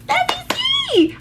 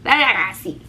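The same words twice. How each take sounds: First: Sudden squeaky high pitch. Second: Said in the usual way. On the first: Retold or imitated. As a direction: jump way up into a squeak. Repeats phrase, second squeaky high.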